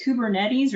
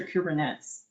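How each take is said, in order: First: "Kubernetes" ending in "-net-eez"; "Kubernetes" rhyming its end with "Betty's"; alternative pronunciation. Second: "Kubernetes" ending in "-nets"; "Kubernetes" with its end like the word "nets"; alternative pronunciation. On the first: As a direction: say "Kubernetes" with four syllables, koo-ber-NET-eez. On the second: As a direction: say "Kubernetes" with three syllables, koo-ber-NETS. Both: Shown as a demonstration. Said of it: "is it Kubernetes or Kubernetes?".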